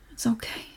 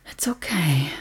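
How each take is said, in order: First: Said in the usual way. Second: Low, breathy whisper; whispered reassurance. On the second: Acted. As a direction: whisper it close to soothe. Comforting upset partner.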